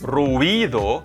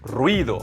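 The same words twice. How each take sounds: First: The vowels are split into two syllables. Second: The vowels glide together into one syllable. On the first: The speaker calls it wrong. "not ruido" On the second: The speaker calls it right. "it's ruido. One syllable"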